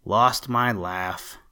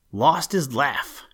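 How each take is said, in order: First: Slow, drawn-out little moan. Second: Louder, higher, drawn-out exclamation; mild shriek. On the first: Twinkling Feet learns his laugh is lost, moaning. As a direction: stretch the words in a mild moan. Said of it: "moaned Twinkling Feet". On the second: All the little elves hear the bad news, mildly shrieked. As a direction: read as an understated shriek, stretched out. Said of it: "shrieked all the little elves". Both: A narrator's reading.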